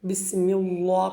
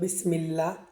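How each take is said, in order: First: The L sound is heavy and thick. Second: The L sound is light and thin. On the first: The speaker calls it wrong. "আপনি এটাকে মোটা করে ফেলেছেন" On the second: The speaker calls it right. "বারিক করার কথা ছিল"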